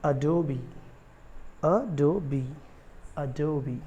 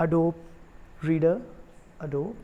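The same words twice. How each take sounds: First: Adobe in three syllables, "a-DOH-bee"; correct pronunciation. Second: Adobe in two syllables, "a-dope"; common mispronunciation. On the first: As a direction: stretch the final ee of Adobe. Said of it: "it is actually". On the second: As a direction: say Adobe with a silent final e. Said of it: "उसको Adobe नहीं बोलते हैं". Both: Shown as a demonstration.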